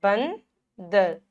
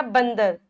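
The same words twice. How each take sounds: First: बंदर stretched very slowly; slow emphatic teaching; drawn out. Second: बंदर read once at normal pace; teacher reads the word; model word. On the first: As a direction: stretch बंदर to show the nasal. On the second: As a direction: give बंदर plainly. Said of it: "क्या आएगा?". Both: Shown as a demonstration.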